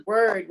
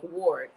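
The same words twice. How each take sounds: First: "word" with an ER vowel; "word" rhyming with bird; usual word. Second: "ward" said as WARD with an OR vowel; "ward" with a rounded back vowel; word with an A. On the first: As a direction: say "word" as WURD. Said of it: "word with an A". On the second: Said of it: "like ward". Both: Shown as a demonstration.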